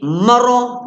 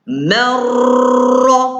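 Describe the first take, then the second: First: The r is single and cut short. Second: The r is doubled and trilled for longer. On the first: The speaker calls it wrong. "Kalau lalu shortcut, dia bunyi maro" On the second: The speaker calls it right. "dia kena lalu jalan jauh sikit"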